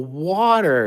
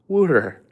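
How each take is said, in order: First: It is said in a standard accent, like "water". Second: It is said in a Philadelphia accent, like "wooter".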